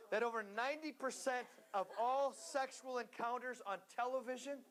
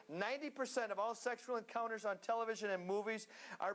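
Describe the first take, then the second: First: Said in the usual way. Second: "Ninety" stressed, faster repeat; emphatic repeat. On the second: Shown as a demonstration. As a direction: say it again with weight on "Ninety". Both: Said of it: "did you hear that?".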